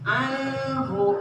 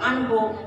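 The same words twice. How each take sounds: First: The n sound is held fully and clearly. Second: The n sound is skipped over quickly. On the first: The speaker calls it right. "harus disempurnakan nun bunyi bunyi nunnya" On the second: The speaker calls it wrong. "Nah itu loncat"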